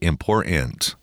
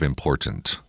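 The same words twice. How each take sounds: First: The last syllable is stressed more strongly. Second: The last syllable is weak and unstressed. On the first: The speaker calls it wrong. "Why do I hate it when people say important" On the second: The speaker calls it right. "instead of important"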